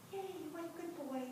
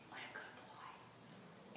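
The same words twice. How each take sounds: First: Soft, high, quick praise for a horse; gentle high cooing praise; soothing praise. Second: Whispered praise to a horse; slow hushed whisper of praise. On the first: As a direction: coo it to calm him. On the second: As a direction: breathe it out slowly, no voice. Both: Retold or imitated.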